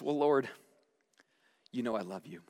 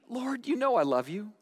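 First: It is said weakly, without conviction. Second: It is said with a bit more force.

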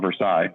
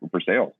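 First: It is said the non-Kentucky way. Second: It is said the local Kentucky way. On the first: The speaker is not from the area. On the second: The speaker is from the area.

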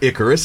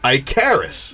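First: The first syllable does not sound like 'Ike'. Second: The first syllable sounds like 'Ike'. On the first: The speaker calls it wrong. "no, it's not Icarus" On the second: The speaker calls it right. "It's Icarus"

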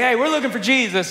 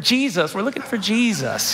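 First: It is said gruffly and forcefully. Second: It is said softly and nicely.

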